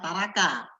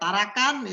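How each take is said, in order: First: The word ends with no final consonant. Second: The word ends in an n sound. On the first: The speaker calls it wrong. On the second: The speaker calls it right.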